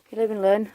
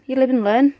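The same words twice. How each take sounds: First: Said in the usual way. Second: Raised, rising exclamation; loud. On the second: Real, not acted. Shrugging off a failed harvest.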